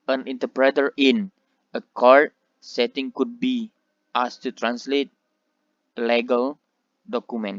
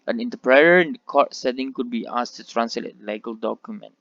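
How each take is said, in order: First: The words are broken apart with pauses. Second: The words run together in one breath. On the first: The speaker calls it wrong. "mereka akan dengan salah memenggal tiap-tiap kata dari kalimat tersebut" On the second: The speaker calls it right. "satu nafas. Jadi terkesan eh, bunyinya itu tersambung menjadi satu"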